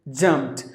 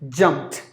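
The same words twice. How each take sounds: First: The word ends with a t sound. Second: The word ends with a t sound.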